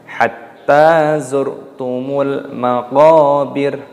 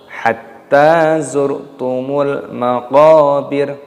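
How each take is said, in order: No difference in how they are said.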